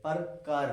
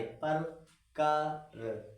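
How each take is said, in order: First: Said in the usual way. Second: पर कर split and stretched very slowly; syllable by syllable. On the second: Shown as a demonstration. Teacher splitting the word to find the aa sound. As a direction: break पर कर apart slowly. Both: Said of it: "किस में आ की ध्वनि आ रही".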